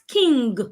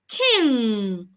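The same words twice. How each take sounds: First: It ends with a hard g sound. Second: It ends without a hard g sound. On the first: The speaker calls it wrong. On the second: The speaker calls it right.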